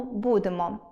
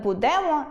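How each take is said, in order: First: Said in the usual way. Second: «будемо» stressed on the middle syllable DE; bu-DE-mo, push the second syllable of «будемо»; wrong stress. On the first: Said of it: "замість правильного". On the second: Shown as a demonstration. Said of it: "вживання неправильного наголосу".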